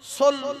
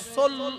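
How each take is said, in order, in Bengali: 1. স্বরধ্বনিটি গোলাকার 'o'-এর মতো শোনায়। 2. স্বরধ্বনিটি গোলাকার 'o'-এর মতো শোনায়।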